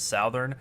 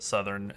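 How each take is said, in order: First: The word is said the Canadian way. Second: The word is said the standard way.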